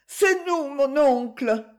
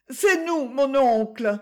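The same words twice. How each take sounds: First: High, raised call repeated to the window; calling up again. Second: High, raised call up to the shutters; calling up to a window. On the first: Young couple repeats their call up to the uncle, high and raised. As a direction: call up once more, pitched high. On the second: Young couple calling up to their uncle at night, high raised call. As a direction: nephew calls his uncle from the street, high raised voice. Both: Acted.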